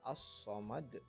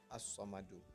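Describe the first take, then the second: First: It ends on a bounced consonant with no vowel. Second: It ends with a final u vowel sound. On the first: The word is read with a pause at the end of the verse. The speaker calls it right. "karena hukumnya adalah qalqalah kubra maka dibacanya as-samad" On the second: The word is read in its original full form. The speaker calls it wrong. "bukan as-samadu"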